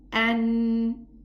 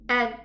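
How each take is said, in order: First: The n resonates fully through the nose. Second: The n is cut short with the nose blocked. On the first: The speaker calls it right. "the ghunna is the sound of the noon that is pronounced from the nasal" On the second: The speaker calls it wrong. "if I close my nose, there won't be a sound of the noon"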